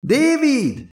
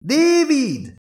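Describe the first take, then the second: First: High, drawn-out call across the distance. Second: High, drawn-out call once more; calling again. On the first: Elizabeth calling back to the distant android, high shout. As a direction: shout the name to someone far off. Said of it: "Elizabeth visszakiáltott az android felé". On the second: Elizabeth calling the silent android again, high shout. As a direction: call his name again, reaching far. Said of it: "kiáltott fel ismét a nő". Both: A narrator's reading.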